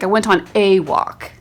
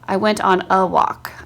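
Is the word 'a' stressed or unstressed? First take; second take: stressed; unstressed. First: The word 'a' is said with full stress. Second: The word 'a' is reduced to a weak 'uh'. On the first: The speaker is insisting on a correction. "then you would like put an accent on it" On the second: It is ordinary, neutral speech. "that's why we pronounce it uh"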